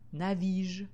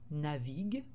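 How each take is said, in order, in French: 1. Le g est un son j doux. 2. Le g est un son g dur. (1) "Si je n'avais pas mis le U, j'aurais fait le mot" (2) "j'ai été obligée d'ajouter la lettre U derrière le G"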